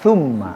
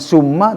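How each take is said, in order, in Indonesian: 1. Kata ini diawali dengan bunyi th. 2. Kata ini diawali dengan bunyi s biasa. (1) "tapi thumma" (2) "bukan summa"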